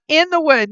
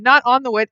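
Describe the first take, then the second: First: "In the Wood" with weight on "the"; stress on the name. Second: "not" hit firmly, falling; stress on not. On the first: Correcting the viewers on the brand name, "In the Wood" stressed. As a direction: lean on "the" in "In the Wood", falling. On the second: Correcting a wrong brand name, stress on "not". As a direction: push "not" in "not on the wood". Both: Shown as a demonstration.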